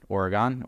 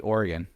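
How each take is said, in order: First: "Oregon" with a final open "gahn", /ɔɹəɡɑn/. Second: "Oregon" with a final "gun", /ɔɹəɡən/. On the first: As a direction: say "Oregon" ending in a full "gahn" vowel. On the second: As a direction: say "Oregon" ending in a short unstressed "gun". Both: Shown as a demonstration. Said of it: "I say it both ways".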